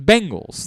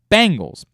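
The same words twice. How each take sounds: First: The first syllable sounds like 'ben'. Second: The first syllable sounds like 'bang'. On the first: This is the standard way of saying it. "That's how you say the name of the team" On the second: This is a local way of saying it. "be like the band, B A N G L E S"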